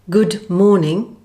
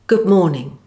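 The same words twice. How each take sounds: First: The final D is fully pronounced. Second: The final D is not sounded.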